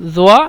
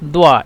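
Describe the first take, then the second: First: The word begins with a z sound. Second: The word begins with a d sound. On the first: This is the standard Arabic form. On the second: This is the Egyptian form.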